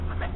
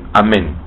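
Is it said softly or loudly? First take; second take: softly; loudly. First: It is said softly, in a low voice. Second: It is said louder, with raised voice.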